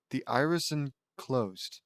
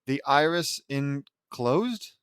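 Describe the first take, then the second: First: "The iris enclosed" slow, falling at the end; settled statement. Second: "The iris enclosed" drawn out, rising at the end; puzzled question. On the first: Reader rereads the ending phrase, stating "enclosed" with a fall. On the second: Reader puzzles over an unfamiliar ending phrase, questioning "enclosed". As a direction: read "The iris enclosed" slowly as an unsure question. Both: Real, not acted.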